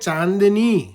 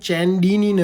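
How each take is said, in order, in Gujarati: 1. નામ અનુનાસિક 'chaan' થી શરૂ થાય છે અને નરમ d છે. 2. નામ 'chen' થી શરૂ થાય છે અને તેમાં સખત d છે. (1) "એ છે ચાંદની" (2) "આ ચંદુ ચેન્ડીની નથી"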